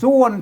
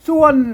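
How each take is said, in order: First: The syllable is said with a low tone. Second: The syllable is said with a falling tone. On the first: "เสียงเอกนะ" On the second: "เสียงโทพิเศษโทเมือง"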